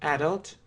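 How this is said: It is said with a British English pronunciation. "British English"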